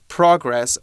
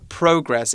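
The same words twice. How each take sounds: First: It is said in an American accent. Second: It is said in a British accent.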